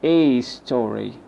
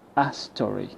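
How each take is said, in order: First: The word a is said fully as ay. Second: The word a is a short weak uh. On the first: The speaker calls it wrong. "I don't say a story. I don't produce the name of the a" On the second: The speaker calls it right. "The a is replaced by the schwa"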